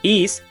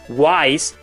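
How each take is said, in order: First: The name begins with an 'ee' sound. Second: The name begins with a 'why' sound. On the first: The speaker calls it right. "It's pronounced Is" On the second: The speaker calls it wrong. "people believing the pronunciation was Wise due to an error"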